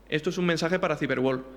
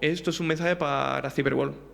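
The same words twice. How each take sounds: First: The phrase flows smoothly at an even pace. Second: One word is drawn out and hangs briefly. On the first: A real person is speaking naturally. "en vez de decir" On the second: The audio has been faked and stretched. "Se queda el- como parado ahí"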